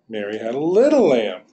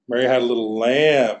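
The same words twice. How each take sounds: First: The word little carries the main stress. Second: The word lamb carries the main stress. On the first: The lamb was small, not big. "So she didn't have a big one. You're being very specific here. Little" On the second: It was a lamb, not some other animal. "maybe she had like chickens and turkeys and cows at some other point, but now she's got a little lamb"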